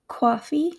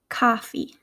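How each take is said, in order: First: "coffee" as rounded "cwaw-fee", pitched up; East Coast pronunciation. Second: "coffee" with an open "ah" vowel; Midwestern pronunciation. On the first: Teacher contrasting accents, "coffee" said East Coast as "cwaw-fee". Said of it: "in an East Coast accent". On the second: Teacher contrasting accents, "coffee" said Midwestern as "cah-fee". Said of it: "in my Midwestern accent". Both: Shown as a demonstration.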